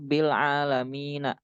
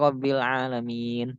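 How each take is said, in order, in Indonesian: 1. Huruf nun terakhir dibaca dengan vokal sesudahnya. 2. Kata berhenti pada huruf nun tanpa vokal. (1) "Kan seharusnya ini dibaca Rabbil Alamina" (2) "nggak dibaca nak, tapi ... diwakofkan, dimatikan"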